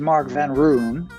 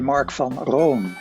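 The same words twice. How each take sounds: First: The name is said with an American accent. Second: The name is said with a Dutch accent.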